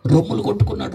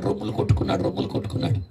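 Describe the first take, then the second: First: Said in the usual way. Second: Fading whisper. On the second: A narrator's reading. Preacher telling how the man beat his chest, fading to a whisper. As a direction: repeat it softer each time, down to a whisper.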